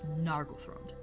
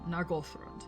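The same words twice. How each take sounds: First: The middle syllable 'goth' is not stressed. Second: The middle syllable 'goth' is stressed. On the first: The speaker calls it wrong. "you will hear me mispronounce that very frequently as" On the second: The speaker calls it right. "Emphasis on Goth"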